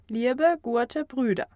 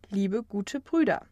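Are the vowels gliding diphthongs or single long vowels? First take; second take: diphthongs; long vowels. First: The vowels are gliding two-part diphthongs. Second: The vowels are single steady long vowels. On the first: This is the older form of the language. "die sogenannten Diphthonge" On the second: This is the later, modern form of the language. "zu einfachen Langvokalen"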